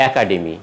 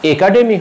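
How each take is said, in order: First: একাডেমি begun with open "æ"; wide first vowel in একাডেমি, as in "hat"; correct pronunciation. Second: একাডেমি begun with closed "e"; wrong pronunciation. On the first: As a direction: say একাডেমি as "ækademi". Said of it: "হবে". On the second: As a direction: say একাডেমি as "ay-kademi". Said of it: "একাডেমি হবে না". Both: Shown as a demonstration.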